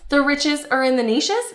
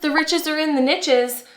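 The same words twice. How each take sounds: First: Niches is said not rhyming with riches. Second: Niches is said to rhyme with riches. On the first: The speaker calls it wrong. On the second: The speaker calls it right.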